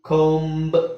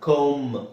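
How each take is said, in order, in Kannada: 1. ಕೊನೆಯಲ್ಲಿ b ಧ್ವನಿ ಕೇಳಿಸುತ್ತದೆ. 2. ಕೊನೆಯಲ್ಲಿ b ಧ್ವನಿ ಕೇಳಿಸುವುದಿಲ್ಲ. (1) "ಅಲ್ಲ" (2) "ಬಿ ನ ತೆಗೆದುಬಿಡಿ"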